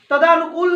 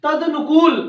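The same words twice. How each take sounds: First: तदानुकूल said with a long aa after द, ta-daa-nu-kool; teacher says the wrong spelling for the students to avoid, तदानुकूल with long aa; wrong form. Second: तदनुकूल said with a short a after द, ta-da-nu-kool; teacher gives students the right form, तदनुकूल with short a; correct form. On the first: Clearly sounding out तदानुकूल with long aa as the mistake. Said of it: "तदानुकूल नहीं होता". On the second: Crisp तदनुकूल with short a and a falling close. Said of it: "क्या होता है?". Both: Shown as a demonstration.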